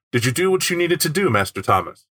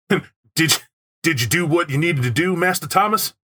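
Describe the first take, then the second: First: Sinister chauffeur voice. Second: Lightly raised, theatrical chauffeur voice; hammy butler voice. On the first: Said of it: "you could also read it as". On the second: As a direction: overplay a polite butler. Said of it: "why did I use it in that voice". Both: Shown as a demonstration.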